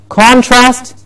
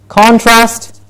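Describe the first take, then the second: The two takes are said the same way.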